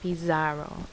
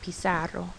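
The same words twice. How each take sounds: First: The z is said as a buzzing z sound. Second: The z is said as a hissing s sound. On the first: The speaker calls it wrong. "It's not pizarro" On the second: The speaker calls it right. "notice it sounds like a S, not a Z sound"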